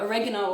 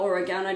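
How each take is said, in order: First: Oregano stressed on the second syllable, o-REG-ano; first pronunciation variant. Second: Oregano stressed on the third syllable, o-re-GAH-no; second pronunciation variant. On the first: Naturopath offering listeners one way to say the herb, o-REG-ano. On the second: Naturopath offering listeners the other way to say the herb, o-re-GAH-no. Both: Shown as a demonstration. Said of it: "depending on how you say it".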